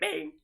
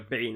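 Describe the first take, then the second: First: It is said in a high-pitched cat voice. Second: It is said in a normal voice.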